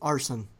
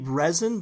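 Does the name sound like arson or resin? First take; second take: arson; resin. First: The name sounds like the word arson. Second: The name sounds like the word resin. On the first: "a lot of people just pronounce it as arson" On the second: "I think it's supposed to be resin"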